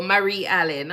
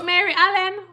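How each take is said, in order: First: "Marie" said as muh-REE, stress on the second syllable; corrected name. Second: "Mary" said as MAIR-ee, high surprised question; "Mary Allen" with the first name as MAIR-ee, rising in surprise; wrong name. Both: Real, not acted.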